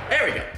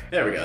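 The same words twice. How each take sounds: First: High, pleased There we go; excited. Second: Said in the usual way. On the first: Real, not acted. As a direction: celebrate the flip brightly. Pancake flipped successfully.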